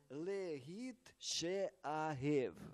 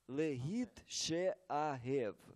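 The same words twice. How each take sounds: Both takes have the same delivery.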